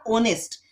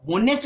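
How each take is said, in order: First: ऑनेस्ट said with a silent h, starting on the o vowel; correct pronunciation. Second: होनेस्ट said with a spoken h at the start; wrong pronunciation. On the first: Teacher correcting students, ऑनेस्ट with no h sound. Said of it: "ये होनेस्ट नहीं है". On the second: Teacher showing students the common mistake, होनेस्ट with an h. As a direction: say होनेस्ट as HOnest, sounding the h. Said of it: "इसको होनेस्ट नहीं बोलेंगे". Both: Shown as a demonstration.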